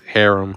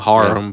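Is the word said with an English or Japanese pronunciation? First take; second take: English; Japanese. First: It is pronounced the English way. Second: It is pronounced the Japanese way. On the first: "but for us it's harem" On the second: "in J- Japanese they call it harem"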